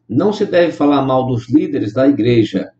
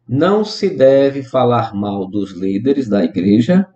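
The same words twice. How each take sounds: First: It is read at a normal pace. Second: It is read slowly with pauses.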